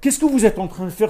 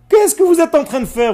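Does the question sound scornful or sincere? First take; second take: sincere; scornful. First: The question is asked sincerely, wanting an answer. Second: The question is asked with scorn and mockery. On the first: The asker genuinely wants to learn. The speaker calls it wrong. "C'est pas apprenez-moi, j'ai envie de savoir" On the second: The asker thinks the others' actions are nonsense. The speaker calls it right. "je vais te le faire avec l'intonation"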